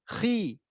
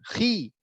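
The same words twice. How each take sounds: No difference in how they are said.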